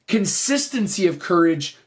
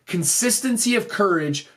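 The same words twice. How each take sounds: The two takes are said the same way.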